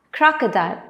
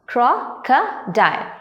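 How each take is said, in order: First: Said in the usual way. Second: Slow "crocodile" as cro, co, dile; broken into syllables. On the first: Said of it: "these words can be broken". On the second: Shown as a demonstration. Teacher breaking words into three parts, "crocodile" slow and split. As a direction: pause between the three beats of "crocodile". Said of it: "three parts".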